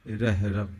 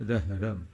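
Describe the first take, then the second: No difference in how they are said.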